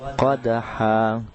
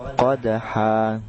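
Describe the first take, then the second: The two takes are said the same way.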